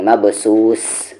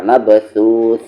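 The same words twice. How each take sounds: First: मबसूस with plain hissing s; wrong s sound. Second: मबसूस ending with th as in think; correct tha sound. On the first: Teacher showing what not to read, plain s in मबसूस. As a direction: say मबसूस with seen instead of th. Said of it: "ऐसे नहीं". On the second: Teacher showing how to read, th in मबसूस. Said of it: "ऐसे पढ़ना". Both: Shown as a demonstration.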